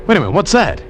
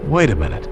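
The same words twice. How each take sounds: First: Sudden higher pitch, catching sight of something; alert excitement. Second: Said in the usual way. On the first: Acted. Friend spotting a raft in the channel, alert and excited. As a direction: snap to attention at a distant shape.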